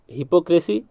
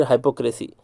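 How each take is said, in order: First: हिपोक्रेसी with a short "hi" at the start; HIP-o pronunciation. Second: हाइपोक्रेसी starting with "high"; HIGH-po pronunciation. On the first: (हिपोक्रेसी, शुरू में छोटी "हि") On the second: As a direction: open हाइपोक्रेसी on an "eye" vowel. (हाइपोक्रेसी, शुरू में "हाइ") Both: Shown as a demonstration. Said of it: "ऐसे बोलते हैं".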